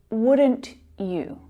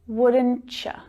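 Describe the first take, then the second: First: The second word is a full you. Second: The second word is reduced to ya.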